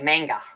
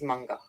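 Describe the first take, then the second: First: It is said with an Australian-style pronunciation. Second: It is said with a Japanese-style pronunciation. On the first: "in Australia they go manga" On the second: "is actually how it's pronounced is manga"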